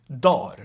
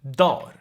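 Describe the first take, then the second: First: The G sound is dropped from the middle. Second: The G sound is dropped from the middle.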